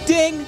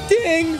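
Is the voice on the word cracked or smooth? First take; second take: smooth; cracked. First: The voice stays smooth without breaking. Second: The voice cracks and breaks in pitch. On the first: The speaker calls it right. "That was supposed to be ding" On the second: The speaker calls it wrong. "that was a bad voice crack"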